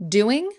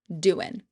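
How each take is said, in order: First: The word ends with a g sound. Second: The word ends without a g sound.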